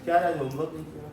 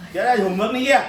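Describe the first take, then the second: First: Said in the usual way. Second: Louder, scolding rise on किया, half laughing; teacher's mock scolding. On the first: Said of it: "tone मतलब क्या style में बात करते हैं". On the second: Shown as a demonstration. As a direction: tell off a kid who skipped homework. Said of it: "tone change हो गया".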